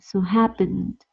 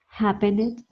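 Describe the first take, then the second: First: The -ed ending adds no extra syllable. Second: The -ed ending is said as an extra syllable. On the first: The speaker calls it right. "we don't pronounce that E. We pronounce the N and the D" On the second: The speaker calls it wrong. "we don't say"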